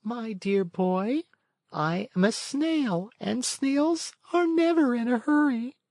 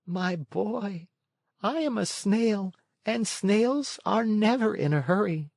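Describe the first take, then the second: First: Calm, peaceful snail. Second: Much higher snail voice, unhurried; a creature who will not rush. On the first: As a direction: gently refuse to rush. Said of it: "in a calm, peaceful voice". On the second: Snail replying. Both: A narrator's reading.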